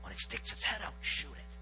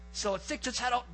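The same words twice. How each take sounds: First: Hushed, low hunting whisper. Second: Said in the usual way. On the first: Retold or imitated. Hunter instructing his partner as toms approach, retold whisper. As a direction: whisper it so the birds won't hear. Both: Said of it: "I whisper to Brett".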